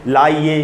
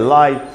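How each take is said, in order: First: An extra vowel sound follows the long vowel. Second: The word ends on the long vowel alone. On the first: The speaker calls it wrong. "इसको हम ऐसे तो नहीं पढ़ते" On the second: The speaker calls it right. "हम पढ़ते हैं लाई"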